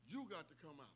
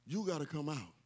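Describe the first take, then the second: First: Much softer, almost under the breath; hushed repeat of the call; quiet. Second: Said in the usual way. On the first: Shown as a demonstration. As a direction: let it drop to a hush. Repeated line, then near silent.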